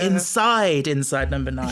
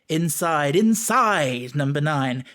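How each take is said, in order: First: The emphasis falls on the first 'inside'. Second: The emphasis falls on the second 'inside'. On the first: The speaker calls it right. "you should put the emphasis on the first one" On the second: The speaker calls it wrong. "the way that Reese pronounces or delivers the title, he goes"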